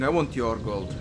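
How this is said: It is said in a relaxed, chill way.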